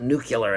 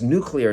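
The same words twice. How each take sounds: First: Said nu-cu-lar, with an extra u sound. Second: Said nu-clear, with no extra vowel sound. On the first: The speaker calls it wrong. "not nuclear, as so many people are saying it" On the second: The speaker calls it right. "it's nuclear"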